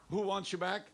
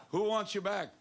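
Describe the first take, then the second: First: Prompting question. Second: Louder prompting question. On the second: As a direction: ask it louder, drawing the answer. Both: Shown as a demonstration. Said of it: "aap to itna dheema bolte na".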